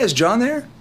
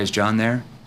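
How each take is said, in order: First: It is relaxed and casual, like a friend. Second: It is flat and stiff, like a telemarketer.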